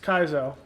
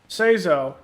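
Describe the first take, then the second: First: The name begins with a hard K sound. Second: The name begins with a soft S sound. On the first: The speaker calls it right. "but it's Kaizo" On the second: The speaker calls it wrong. "normally you would say Seizo"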